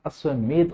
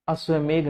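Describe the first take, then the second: First: अश्वमेध ending in ध, a dental dh; correct final dh. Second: अश्वमेघ ending in घ, a gh sound; wrong final gh. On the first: Teacher correcting students, अश्वमेध ending in dh. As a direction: say अश्वमेध with the tongue on the teeth at the end. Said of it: "अश्वमेध होता है". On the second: Teacher showing the common mistake, अश्वमेघ ending in gh. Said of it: "अश्वमेघ नहीं होता". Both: Shown as a demonstration.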